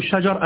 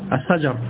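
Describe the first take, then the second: First: The word is said with a sh sound. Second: The word is said with an s sound. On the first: The speaker calls it right. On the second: The speaker calls it wrong.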